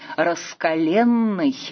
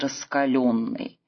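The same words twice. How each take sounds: First: The stressed vowel is 'e', rhyming with вселенной. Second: The stressed vowel is 'yo', breaking the rhyme. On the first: This follows the older norm and keeps the rhyme. The speaker calls it right. "следует произносить «раскаленный»" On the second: This follows the modern norm and breaks the rhyme. The speaker calls it wrong. "а не «раскаленный»"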